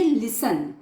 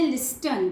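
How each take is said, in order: First: Silent T; correct pronunciation. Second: Listen with the T sounded; wrong pronunciation. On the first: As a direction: say लिसन with no T. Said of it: "T is silent here". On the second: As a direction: say लिस्टन with a clear T. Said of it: "कुछ बच्चे बोलते हैं लिस्टन". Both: Shown as a demonstration.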